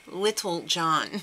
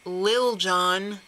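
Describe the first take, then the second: First: The first word has two full syllables. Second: The first word is one short syllable. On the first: The speaker calls it wrong. "not Little John" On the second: The speaker calls it right. "It's Lil Jon"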